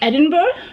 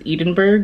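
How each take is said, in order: First: It is an attempt at the local pronunciation. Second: It is said with an American pronunciation. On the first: "let me try to say this correctly" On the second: "my dumbass American self automatically says Edinburgh, which I know is completely wrong"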